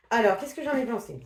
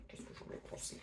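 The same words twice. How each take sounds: First: Said in the usual way. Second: A hushed whisper of the question; soft whispered musing before the verdict; whispered to herself. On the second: Pretend. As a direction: whisper it as if pondering alone. Muses over her verdict.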